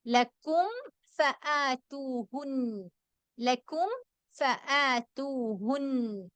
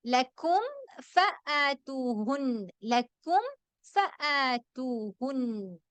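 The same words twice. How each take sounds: First: ലക്കും with the meem closed clearly on both lips before ഫ; slow recitation, lips fully shut on ലക്കും; ലക്കും said with a distinct m before ഫആതൂഹുൻ. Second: ലക്കും with meem pronounced cleanly before ഫആതൂഹുൻ; slow chanted ലക്കും, lips closed then release to ഫ; tajweed demo of ലക്കും ഫആതൂഹുൻ; clear meem recitation. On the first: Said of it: "വ്യക്തമാക്കി ഉച്ചരിക്കല് ശ്രദ്ധിക്കണം". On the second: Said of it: "എങ്ങനെ pronounce ചെയ്യും?". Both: Shown as a demonstration.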